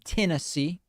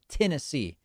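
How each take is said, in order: First: Tennessee is said in an outsider, non-local way. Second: Tennessee is said in the local Tennessee way. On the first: "That's how they don't say Tennessee" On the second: "It's Tennessee down there"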